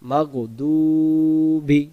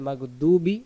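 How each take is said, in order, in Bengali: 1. d-এর পরের স্বরটি লম্বা করে টানা হয়। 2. d-এর পরের স্বরটি ছোট করে কাটা হয়। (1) "এই দদের পেশটাকে এক আলিফ টান দেব" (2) "যদি আমি বলি মাগদুবি, ওয়াও অক্ষরটাকে বাদ চলে যাবে"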